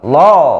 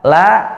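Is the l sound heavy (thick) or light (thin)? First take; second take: thick; thin. First: The l sound is thick and heavy. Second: The l sound is thin and light. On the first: The speaker calls it wrong. "lo-nya tebal, tidak boleh" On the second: The speaker calls it right. "La-nya tipis"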